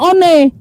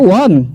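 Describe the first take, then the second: First: It is read letter by letter, Indonesian-style. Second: It is said like English 'won'. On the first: "Bahasa Indonesianya one" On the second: "kan bahasa Inggris sebutannya won"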